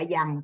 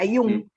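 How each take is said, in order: First: The name is said the English way. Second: The name is said the German way. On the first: The speaker calls it wrong. "no se pronuncia Yang" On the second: The speaker calls it right. "se pronuncia Jung, ... porque es alemán, no es inglés"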